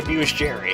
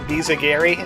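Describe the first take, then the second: First: The name sounds like the words abuse Jerry. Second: The name is said as one word, bizagiri. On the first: It is a joking version of the name. The speaker calls it wrong. "I like saying Abuse Jerry. Because it's funny" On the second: It is the proper form of the name. The speaker calls it right. "Just the proper way to say it"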